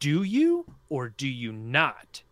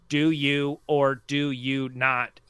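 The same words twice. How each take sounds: First: It is said with strong emphasis. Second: It is said flatly, without emphasis.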